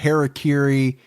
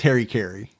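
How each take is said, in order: First: It is said with four even syllables, ha-ra-ki-ri. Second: It is said like the two words Harry Carey. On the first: This is the original pronunciation. "I think the real pronunciation" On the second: This is the usual form in the United States. "here in the States I've always heard it pronounced Harry Carey"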